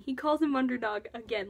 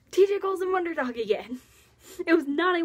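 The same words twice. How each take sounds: First: Said in the usual way. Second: Higher and louder, thrilled; excited. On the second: Real, not acted. Fan gushing to viewers about the nickname, excited. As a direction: burst out with delight at the nickname.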